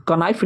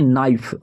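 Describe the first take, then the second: First: कनाइफ with the k sounded, ka-naif; wrong pronunciation. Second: नाइफ with a silent k, naif; right pronunciation. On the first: Teacher warning students off the wrong reading, k sounded. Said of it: "कनाइफ नहीं पढ़ते". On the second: Teacher giving students the right reading, silent k. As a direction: start नाइफ straight on the n, no k. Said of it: "इसको पढ़ते हैं नाइफ". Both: Shown as a demonstration.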